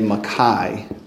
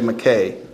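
First: The name is said the British English way. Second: The name is said the American English way. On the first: "In British English, you say Mackay" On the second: "in English we say McKay, well, in American English"

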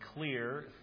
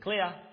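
First: It is said with a final r sound. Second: It is said with no final r sound. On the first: "the word was clear" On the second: "the Aussie read it as clear"

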